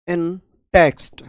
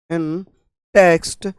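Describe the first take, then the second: No difference in how they are said.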